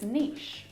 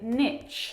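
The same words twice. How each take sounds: First: The word is said without a t sound. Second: The word is said with a t sound. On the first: This is how it is said outside America. "the rest of the English-speaking world says niche" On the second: This is how it is said in America. "Americans say niche and add a T sound in there"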